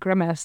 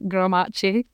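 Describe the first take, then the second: First: The last syllable is short and unstressed. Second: The last syllable sounds like 'ace'. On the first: The speaker calls it right. "somebody said grimace and I was like, oh, that's what that is" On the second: The speaker calls it wrong. "because it ends in A-C-E, I was like, Grimace"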